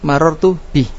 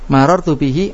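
First: The phrase ends on the consonant h. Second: The phrase ends with a short vowel after h.

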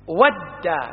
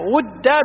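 First: The first vowel is an 'a' sound. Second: The first vowel is a 'u' sound. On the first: "بفتح الواو" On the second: "بضم الواو"

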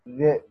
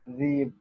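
First: A glottal stop comes after the first consonant. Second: The glottal stop is replaced by a long vowel.

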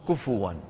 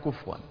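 First: A vowel after f is followed by w. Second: The f has no vowel before w. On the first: "من يقلب الهمزة واوا من باب السهولة" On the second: "ومنهم من يسكن الفاء فيقول كفوا"

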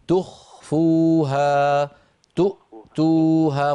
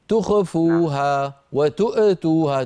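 First: The consonants are released cleanly without bounce. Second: A consonant gets an added bouncing jolt. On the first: The speaker calls it right. "الصواب أن تكون هكذا" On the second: The speaker calls it wrong. "اسمعني سأقلدك ... هل رأيت هذه الهزة؟ هذا الخطأ"

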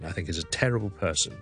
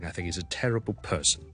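First: Only the word terrible carries strong stress. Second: The word person is stressed as well. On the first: "重音terrible" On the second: "我stress my person 都得"

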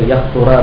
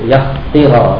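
First: The vowel after the t is u. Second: The vowel after the t is i. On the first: "satu yahtura baris depan" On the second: "satu yahtira baris bawah"

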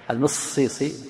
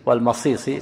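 First: An 'i' vowel follows M, with a doubled S. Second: An 'a' vowel follows M, with a single S. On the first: "تشديد كسر الميم" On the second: "تخفيف الصاد فتح الميم"

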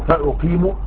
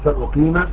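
First: The word ends with a short 'u' vowel. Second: The word ends with a short 'a' vowel. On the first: The verb is read as a fresh, independent statement. "ويجوز الرفع على الاستئناف" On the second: The verb is read as the subjunctive after a question. "فأقيل بالنصب"

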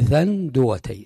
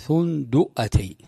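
First: First vowel is a, with no glottal stop. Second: First vowel is u, with a glottal stop. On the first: "وإذا فتحت تقول ثندوتي" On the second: "إذا ضممت الثاء تقول ثندوتي، تكون فيها همزة"

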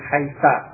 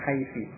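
First: The word ends with an a vowel. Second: The word ends with an i vowel. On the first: Some Arabs read the word this way. "menjadikan dia tetap dengan fathah" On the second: Other Arabs read the word this way. "menjadikan mabni dengan kasrah, membacanya dengan haiti"

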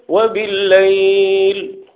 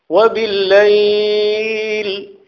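First: The vowel sound is held a moderate length. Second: The vowel sound is stretched out very long.

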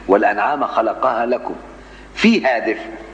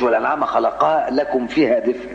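First: There is a pause after lakum. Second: There is no pause after lakum. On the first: Warmth and benefits are listed as separate blessings. The speaker calls it right. "انا وقفت عليها دي في القراءة خلي بالك" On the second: 'Fiha' wrongly becomes a place phrase tied to creation. The speaker calls it wrong. "ما تقولش"

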